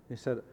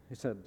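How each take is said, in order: No difference in how they are said.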